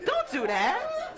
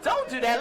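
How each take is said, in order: First: High, slow scolding warning; drawn-out high scolding. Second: Said in the usual way. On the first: Shown as a demonstration.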